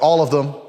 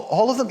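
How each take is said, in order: First: Emphatic, louder reply as the diner; decisive order. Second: High, startled waiter's question; mock disbelief. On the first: Acted. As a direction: state it as settled, no discussion. Diner's curt order of every side. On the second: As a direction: echo it back as an astonished server. Startled waiter repeats the order.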